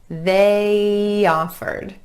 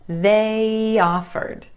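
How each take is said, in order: The two takes are said the same way.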